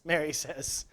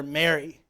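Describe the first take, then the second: First: Said in the usual way. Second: Soft, lower, lovingly saying her name; tender name call. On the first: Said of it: "the way he says Mary". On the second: Acted. Risen Jesus gently calling to weeping Mary, tender. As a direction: say her name like you know her at once. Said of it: "something about the way he says Mary".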